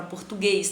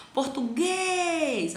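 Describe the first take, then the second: First: Said in the usual way. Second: Português with a long, high, drawn-out GUÊS; stress on GUÊS. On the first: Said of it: "Ó, português". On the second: Shown as a demonstration. Teacher points out the tonic syllable, GUÊS stretched long and high. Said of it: "a sílaba tônica".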